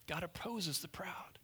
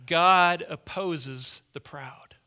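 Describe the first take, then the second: First: Soft, near-whispered repeat; hushed echo. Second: Slow, emphatic, louder declaration; loud proclamation. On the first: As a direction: let it sink in, almost under your breath. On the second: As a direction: pound out each word from the pulpit. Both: Shown as a demonstration.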